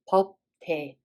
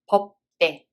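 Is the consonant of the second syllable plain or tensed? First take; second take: plain; tensed. First: The d of the second syllable is plain. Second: The d of the second syllable is tensed. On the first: The speaker calls it wrong. "instead of" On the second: The speaker calls it right. "we read it as"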